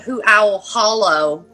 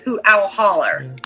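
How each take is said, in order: First: The last word ends with an 'oh' sound. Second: The last word ends with an 'er' sound. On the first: It sounds pretentious to locals. The speaker calls it wrong. "you're not going to be like" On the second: It is how locals say it. The speaker calls it right. "No, it's"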